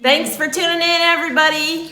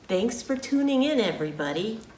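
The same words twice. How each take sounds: First: It is said loudly, projecting the voice. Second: It is said at a normal, quieter volume. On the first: "I was projecting my voice because I'm not mic'd" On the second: "just talk normally"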